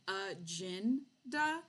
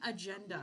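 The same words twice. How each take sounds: First: The middle syllable sounds like 'gin'. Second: The middle syllable sounds like 'jen'. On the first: It is the group's own joke name. "we are actually saying agenda ... it became the uh gin J I N da" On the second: It is the ordinary word. "it's not an agenda"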